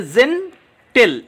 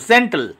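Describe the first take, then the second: First: "জেন্টেল" split by a clear pause; two separate syllables. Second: Said in the usual way. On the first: Shown as a demonstration. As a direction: say "জেন্টেল" as two spaced beats. ("জেন্টেল" দুই সিলেবলে ভেঙে) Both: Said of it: "এখানে দুটি syllable".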